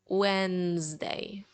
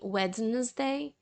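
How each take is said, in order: First: The D in the middle is silent. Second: The D in the middle is pronounced. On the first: The speaker calls it right. "we will say more of Wednesday" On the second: The speaker calls it wrong. "instead of saying Wednesday"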